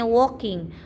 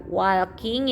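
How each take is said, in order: First: "walking" as waw-king, no l; correct reading. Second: "walking" as wal-king, l sounded; audible l in "walking"; spelling pronunciation. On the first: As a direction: silent l and o vowel in "walking". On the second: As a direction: read "walking" with a and l as written. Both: Shown as a demonstration. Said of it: "itu bacanya walking".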